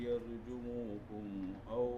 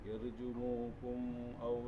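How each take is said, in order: No difference in how they are said.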